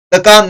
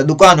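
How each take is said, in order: First: दुकान misread as "dakaan"; first vowel of दुकान turned to a short a; wrong pronunciation. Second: दुकान with a short u after द; correct pronunciation. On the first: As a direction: drop the u from दुकान, saying "da-kaan". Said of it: "दुकान नहीं होता". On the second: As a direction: say दुकान as "du-kaan". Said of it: "दुकान होता है". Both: Shown as a demonstration.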